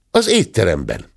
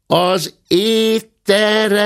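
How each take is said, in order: First: Said in the usual way. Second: High, slow, loud call; shouted. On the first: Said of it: "kiáltotta". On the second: A narrator's reading. Maid shouting into the guest's ear, high and slow. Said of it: "kiáltotta a szobalány a bátya fülecskéjébe".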